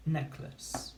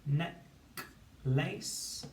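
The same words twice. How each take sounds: First: Said in the usual way. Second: "neck, lace" as two separate beats, each rising; syllable by syllable. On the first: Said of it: "to build the word". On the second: Shown as a demonstration. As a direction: split "neck, lace" with a clear pause. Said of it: "syllable by syllable".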